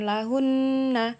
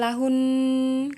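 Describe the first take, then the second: First: The word ends with a released nah sound. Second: The word ends on a held n sound. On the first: The speaker calls it wrong. "Jadi bukan lahun nah" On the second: The speaker calls it right. "tapi lahun ketika dia wakof"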